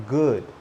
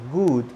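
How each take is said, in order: First: GOOD with short lax oo, as in "could"; GOOD with relaxed lips. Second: GOOD as "good" rhyming with food; GOOD with tense lips. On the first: Teacher modelling it correctly, GOOD with relaxed vowel. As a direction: keep lips loose on GOOD. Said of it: "your lips need to be relaxed". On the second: Teacher showing what to avoid, GOOD with tense vowel. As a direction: tighten lips to a long oo in GOOD. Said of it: "my lips are not relaxed". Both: Shown as a demonstration.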